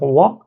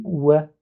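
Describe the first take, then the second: First: "wa" with a French open A; "wa" with a wide vowel, slowly; pronunciation to avoid. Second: "wa" with a fronted vowel, near "wè"; "wa" leaning toward E; corrected pronunciation. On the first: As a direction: say "wa" as French "oua". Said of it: "au lieu de, de dire wa". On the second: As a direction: say "wa" as Arabic "wè". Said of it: "on dit wa". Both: Shown as a demonstration.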